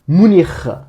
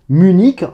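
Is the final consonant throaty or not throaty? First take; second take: throaty; not throaty. First: The final consonant is a throaty rasp. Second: The final consonant is not throaty. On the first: "on va prononcer le C H final comme un R" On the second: "en français"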